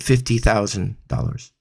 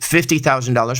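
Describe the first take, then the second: First: It sounds hesitant, with the pitch dropping away. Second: It sounds firm and assured, with steady pitch. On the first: The speaker is not normally paid that amount. The speaker calls it wrong. "there's no confidence in my voice, and why does my voice suddenly drop off the pitch?" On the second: The speaker is used to charging that amount. The speaker calls it right. "I should be saying"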